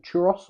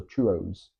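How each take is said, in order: First: "churros" with a short "-oss" ending; pronunciation option. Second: "churros" with a long "-oze" ending; pronunciation option. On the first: Asking partner how to say the dish, "churros" ending in "-oss". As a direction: say "churros" as CHOO-ross. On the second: Asking partner how to say the dish, "churros" ending in "-oze". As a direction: say "churros" as CHOO-roze. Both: Shown as a demonstration. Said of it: "How do you say that?".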